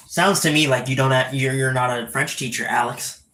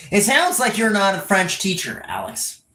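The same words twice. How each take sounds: First: Said in the usual way. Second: Higher, more emphatic accusing tone; pointed accusation. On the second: Real, not acted. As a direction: press the accusation, dropping on Alex. Repeats accusation with more force.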